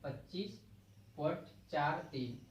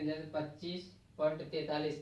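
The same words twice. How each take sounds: First: पच्चीस point चार तीन with digits चार तीन read one by one; correct decimal reading. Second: पच्चीस पॉइंट तैतालीस read as whole number forty-three after the point; wrong reading of decimal. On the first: Teacher shows students the right way to read a decimal, digit by digit. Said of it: "संख्याओं को इकाई के रूप में पढ़ा". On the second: Teacher shows students the wrong way to read a decimal, read as tैतालीस. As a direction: say तैतालीस as one number, the mistaken way. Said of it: "देखो ऐसे नहीं पढ़ेंगे". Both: Shown as a demonstration.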